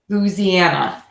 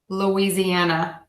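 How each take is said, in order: First: It is said with a local Southern pronunciation. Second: It is said with the general American pronunciation.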